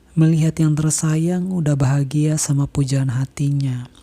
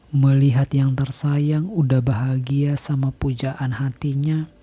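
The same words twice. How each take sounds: The two takes are said the same way.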